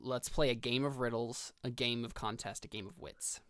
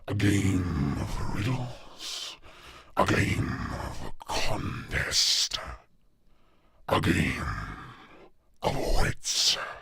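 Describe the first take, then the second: First: It is said in his normal speaking voice. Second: It is said in a put-on Leviathan voice.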